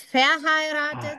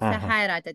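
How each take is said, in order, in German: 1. Die zweite Silbe ist nicht betont. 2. Die zweite Silbe ist betont. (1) "Also nicht verheiratet" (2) "Genau, verheiratet. Aha. Jetzt ist es richtig"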